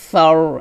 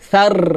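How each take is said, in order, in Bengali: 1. গোল স্বরের সাথে 'r' মোটা। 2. খোলা 'আ' স্বরের সাথে 'r' সরু। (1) "হবে সর, একটু মোটা করতে হবে" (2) "সার এটা হবে না"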